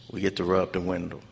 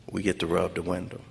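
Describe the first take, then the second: No difference in how they are said.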